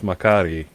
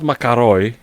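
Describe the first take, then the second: First: The word ends with an 'ee' sound. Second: The word ends with an 'oy' sound. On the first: The speaker calls it right. "Like it's Makari" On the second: The speaker calls it wrong. "it's not Makaroi"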